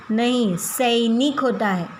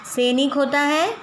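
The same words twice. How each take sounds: First: सैनिक said with a clear ऐ as "सइनिक", slowly; slow corrective reading of सैनिक; correct pronunciation. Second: सैनिक read as "सेनिक" with a short plain ए, questioning rise; wrong spelling read out. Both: Shown as a demonstration.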